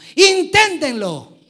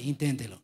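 First: It is said excitedly, as an exclamation. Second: It is said flatly, without excitement.

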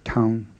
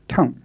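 First: The syllable has a low tone. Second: The syllable has a creaky tone. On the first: "the low tone on taung" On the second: "often changed to a creaky tone"

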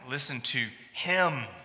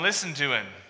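First: The stress is on the pronoun him. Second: The stress is on the verb listen.

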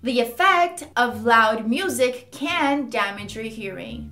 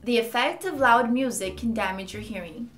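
First: The word effect is heavily emphasized. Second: The sentence is spoken calmly and evenly. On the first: "Eu tava estressando bastante essa palavra effect" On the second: "agora eu vou falar com mais calma"

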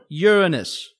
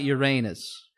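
First: It is said without sounding like 'your anus'. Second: It is said sounding like 'your anus'. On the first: It names the planet with no innuendo. The speaker calls it right. "that's the right way you say it" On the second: It sounds like a sexual joke. The speaker calls it wrong. "You don't say it like it's a sex thing"

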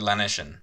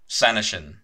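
First: It is said with an anglicized English pronunciation. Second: It is said with a Welsh pronunciation. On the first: The speaker calls it wrong. "how do they say it?" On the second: The speaker calls it right. "pronounce it the Welsh way"

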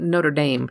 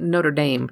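First: It is pronounced the American English way. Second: It is pronounced the American English way.

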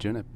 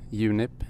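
First: The name is pronounced the English way. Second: The name is pronounced the Swedish way. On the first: "when you're talking English" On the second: "when you're talking Swedish"

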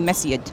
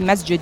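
First: The middle consonant is a 'y' sound. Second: The middle consonant is a 'j' sound. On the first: "you say masjid?" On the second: "why you change the J to Y?"

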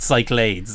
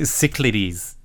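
First: The word is said with two syllables. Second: The word is said with three syllables. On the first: The speaker calls it wrong. "it's definitely not Cyclades" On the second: The speaker calls it right. "I am confident that it is three syllables"

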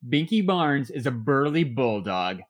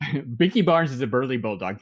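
First: It is said at a normal pace. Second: It is said very fast.

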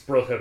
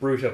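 First: The first vowel sounds like 'brother'. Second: The first vowel does not sound like 'brother'. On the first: The name puns on the word brother. The speaker calls it right. "I think it's Brutta because ... Father Brother" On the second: This is how the speaker habitually said it. The speaker calls it wrong. "I'd always pronounce it Brutta"

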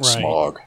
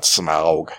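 First: The name sounds like the word 'smog'. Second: The name does not sound like 'smog'. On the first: The speaker calls it right. "I grew up on the Rankin Bass, and it was fucking Smaug" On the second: The speaker calls it wrong. "and not Smaug"

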